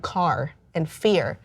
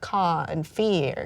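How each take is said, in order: First: The R sounds at the word ends are pronounced. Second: The R sounds at the word ends are dropped. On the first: This is how he spoke. "when [name] was talking, he would pronounce his R's like in car and fear" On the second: This is how he sang, imitating someone else. "he cut off the R"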